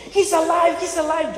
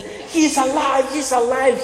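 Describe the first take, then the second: First: Much higher, jubilant he's alive; joyful worship. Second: High, slow, stunned cry of he's alive; a frightened demon blurting the news, drawn out; shaken demon's alarm. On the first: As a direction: praise it like worshippers rejoicing. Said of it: "they begin to worship". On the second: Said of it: "He's shaking". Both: Acted.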